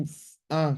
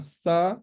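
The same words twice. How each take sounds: First: S- then a, sounded apart with a break between; sounds said separately. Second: "sa" said as one smooth syllable; blended syllable. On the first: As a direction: split "s-, a" into its two sounds, one after the other. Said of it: "fazendo a pronúncia de cada som individual". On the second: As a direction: join the sounds into "sa" in one go. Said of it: "e a junção". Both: Shown as a demonstration.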